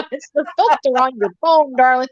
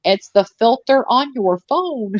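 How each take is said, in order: First: Mock sweet. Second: Said in the usual way. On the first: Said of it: "second take, mock sweet". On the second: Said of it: "repeated as address to Alana".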